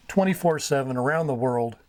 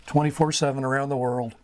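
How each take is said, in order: Both takes have the same delivery.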